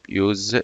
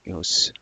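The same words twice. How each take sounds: First: The word ends with a z sound. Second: The word ends with an s sound. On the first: It is the verb. "but as a verb use" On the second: It is the noun. "as a noun use"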